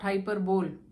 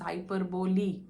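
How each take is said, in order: First: It is said the way it is spelled. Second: It is said unlike its spelling suggests. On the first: The speaker calls it wrong. "not hyperbole, H Y P E R B O L E" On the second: The speaker calls it right. "but it's pronounced as hyperbole"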